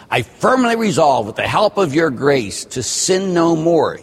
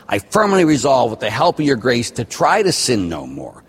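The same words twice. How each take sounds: First: "sin no more" said slowly and firmly, higher pitched; stress on "sin no more". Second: The wrong version, with "try" picked out; stress on "try". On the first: Priest quotes the act of contrition, firm stress on "sin no more". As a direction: recite it emphatically, landing on "sin no more". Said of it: "You do not say". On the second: Priest shows what not to say, stressing "try". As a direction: recite it emphatically, pointing up "try" as the mistake. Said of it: "That's not what you say". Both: Shown as a demonstration.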